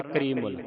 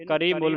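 First: ਕਰੀਮੁਲ as one word, long 'ree'; unhurried ਕਰੀਮੁਲ, kreee-mul in one piece; correct joined reading. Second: ਕਰੀਮੁਲ broken up as 'karee-mul', quickly; fast ਕਰੀਮੁਲ with a full first 'ka'; mistaken reading. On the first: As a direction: model ਕਰੀਮੁਲ joined, stretching the ee. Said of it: "ਇਸ ਦਾ ਉਚਾਰਨ ਹੈ". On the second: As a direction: say ਕਰੀਮੁਲ wrongly, splitting off the mul. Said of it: "ਇਹਨੂੰ ਕਰੀਮੁਲ ਨਹੀਂ ਪੜ੍ਹਨਾ". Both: Shown as a demonstration.

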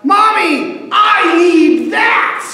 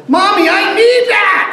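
First: Put-on high shrill little-boy shout; child yelling. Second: Put-on high, loud little-boy shout; child yelling. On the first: Small boy shouting at his mom for a truck, high loud whine. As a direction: yell it like a toddler demanding a toy. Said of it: "One of the kids yelps out". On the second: Boy yelling at his mom again for the yellow truck, high and loud. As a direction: demand it again like a stubborn toddler. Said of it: "And again he yelled".

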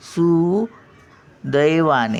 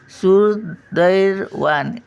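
First: सुदैवाने slowly, with no र after सु; correct pronunciation. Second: सुदैवाने said slowly as "surdair-vaane" with a wrong र; slow mock mistake: सुदैवाने with an extra र after सु; wrong pronunciation demo. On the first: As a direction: stretch सुदैवाने clean, su-dai-vaa-ne. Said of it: "हे रफार येणारच नाही". (बरोबर उच्चार: सुदैवाने, र नाही) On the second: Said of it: "दैर पण नाही". (चुकीचा उच्चार: सुदैवाने मध्ये सु नंतर र) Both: Shown as a demonstration.

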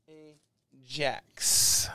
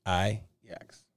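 First: Ajax drawn out as AY-JACKS; J pronounced. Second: Ajax as EYE-ex, J softened to Y; starts with an I. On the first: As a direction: hit the hard J in "Ajax", after a long A. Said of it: "I like to pronounce it the J". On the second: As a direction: say "Ajax" low, opening on a long I. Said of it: "if it's an I". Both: Shown as a demonstration.

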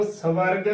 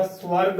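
First: "ਸਵਰਗ" split into "sa-varg"; mispronunciation. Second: "ਸਵਰਗ" joined as "swarg"; correct pronunciation. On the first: Teacher shows what not to say, "ਸਵਰਗ" as "sa-varg". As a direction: put a short vowel between s and v in "ਸਵਰਗ". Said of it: "ਉਚਾਰਨ ਨਹੀਂ ਕਰਨਾ". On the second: Teacher shows what to say, "ਸਵਰਗ" joined as "swarg". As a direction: glide from s straight into w in "ਸਵਰਗ": "swarg". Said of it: "ਉਚਾਰਨ ਕਰਨਾ ਹੈ". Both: Shown as a demonstration.

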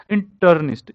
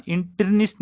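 First: इंटर्निस्ट said "in" then "turn" then "ist", with a clear "turn"; correct pronunciation. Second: इंटर्निस्ट mispronounced "in-tir-nist", with "tir" in place of "turn"; wrong pronunciation. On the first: Teacher correcting students, इंटर्निस्ट said as "in-turn-ist". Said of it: "इन, इन अलग लेना है". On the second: Teacher warning students off a mistake, इंटर्निस्ट as "in-tir-nist". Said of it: "नहीं करना". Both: Shown as a demonstration.

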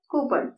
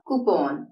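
First: "കൂപ്പൺ" as KOO-pun, weak second vowel; common mispronunciation. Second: "കൂപ്പോൺ" as koo-PON, full round O; correct pronunciation. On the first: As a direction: say "കൂപ്പൺ" quickly with stress up front. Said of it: "പലപ്പോഴും നമ്മൾ ഇതിനെ എങ്ങനെയാണ് പറയുന്നത്?". ("കൂപ്പൺ" സാധാരണ തെറ്റായി "കൂപ്പൺ" എന്ന്) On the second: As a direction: say "കൂപ്പോൺ" lower, lengthening the second syllable. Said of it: "അതിന്റെ ശരിയായ പ്രൊനൗൺസിയേഷൻ". ("കൂപ്പോൺ" ശരിയായി, "പോൺ" നീട്ടി) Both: Shown as a demonstration.

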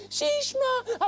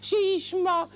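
First: שישמע stretched high, giving up; exasperated. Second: Said in the usual way. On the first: Acted. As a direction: drag out שישמע high and fed up. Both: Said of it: "repeated higher".

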